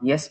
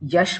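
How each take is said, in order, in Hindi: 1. शब्द 's' ध्वनि पर खत्म होता है। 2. शब्द 'sh' ध्वनि पर खत्म होता है। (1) "तब आप यस बोलते हो" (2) "जब यश बोलने का आता है"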